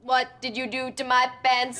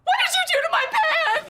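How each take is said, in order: First: It is said flatly like a robot. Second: It is said in a terrified way.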